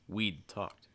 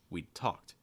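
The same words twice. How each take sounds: First: The stress falls on the first word. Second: The stress falls on the second word. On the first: "I'm stressing the contraction" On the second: "notice the stress typically falling on the participle"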